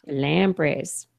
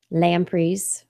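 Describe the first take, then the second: First: "Lampreys" ending in an ay sound; "Lampreys", second syllable rhyming with "days". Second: "lampreys" ending in a long ee sound; "lampreys", second syllable rhyming with "trees". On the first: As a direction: say "Lampreys" as LAM-prayz. Echoes co-host's pronunciation. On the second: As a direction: say "lampreys" as LAM-preez. Says it, later echoes co-host's version. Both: Real, not acted.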